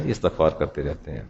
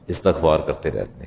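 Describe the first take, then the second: First: استغفار کرتے رہتے ہیں said much softer, answer echoed low; hushed repeated answer. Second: Said in the usual way. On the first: Shown as a demonstration. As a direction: echo the answer quietly, almost to yourself. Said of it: "کیا کرتے ہیں؟". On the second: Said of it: "آپ کیا کرتے رہتے ہیں؟".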